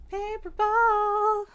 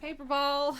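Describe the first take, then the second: First: Much higher, louder drawn-out call of Paper ball; high slow sing-song. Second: Said in the usual way. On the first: Real, not acted. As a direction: stretch Paper ball up high to lure the cat. Luring cat twice.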